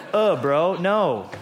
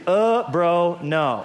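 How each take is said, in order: First: Mock bro dismissal. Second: Mock bro dismissal, laughing. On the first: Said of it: "And Jesus said". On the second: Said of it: "that's in the original Greek".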